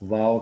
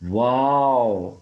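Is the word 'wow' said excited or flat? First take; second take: flat; excited. First: The word is said flatly, without feeling. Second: The word is said with excited, emotional feeling. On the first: It does not convey the speaker's feelings. The speaker calls it wrong. "ये कोई इतना जो है वो आपके जज्बात की तर्जुमानी नहीं कर रहा" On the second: It conveys the speaker's feelings meaningfully. The speaker calls it right. "वो ज़्यादा मीनिंगफुल बन जाता"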